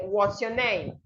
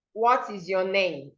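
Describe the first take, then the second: First: "What's your name" run together, dropping at the end; contracted, falling. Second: "What is" as two separate words; uncontracted. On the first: Teacher showing what we would say, contracted with falling end. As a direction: link "What's your" and let "name" fall. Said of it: "we would say". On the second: Teacher showing what to say instead of, full unlinked form. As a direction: say "What is your name" word by word. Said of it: "So instead of saying". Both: Shown as a demonstration.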